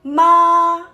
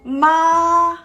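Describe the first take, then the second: First: The pitch stays level throughout. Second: The same.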